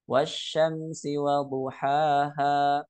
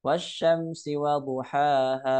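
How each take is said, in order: First: Duhaha with the final ha lengthened to two beats; two-beat madd. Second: Duhaha with the final ha dragged far too long; overlong madd. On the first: Teacher showing students the correct madd length. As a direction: hold the last ha of duhaha exactly two counts. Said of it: "dengan kadarnya dua harokat". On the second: Teacher demonstrating the too-long ending as a warning. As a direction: overstretch the last ha of duhaha well past two beats. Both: Shown as a demonstration.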